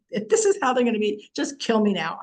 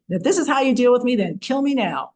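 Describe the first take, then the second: First: Said in the usual way. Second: Louder, fast fed-up mother's outburst; exasperated mother. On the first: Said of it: "it's like". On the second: Retold or imitated. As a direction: blurt it out like a mother at the end of her rope. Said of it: "you can imagine your mother saying this too".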